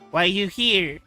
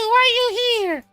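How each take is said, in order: First: It is said without the character's voice. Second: It is said in the character's put-on voice.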